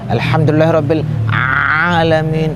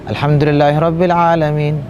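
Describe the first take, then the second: First: The ain sound is strongly exaggerated. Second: The ain sound is pronounced normally. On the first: The speaker calls it wrong. "Sebagian orang menyebut ain itu kebangetan lah, kesanteran" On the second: The speaker calls it right. "Kan agak biasa"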